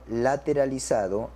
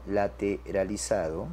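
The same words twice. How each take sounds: First: Said in the usual way. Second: Slow, low and softer repeat; dictation pace. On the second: Shown as a demonstration. Teacher repeats the result for students, dictation pace. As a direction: draw it out as if writing it down.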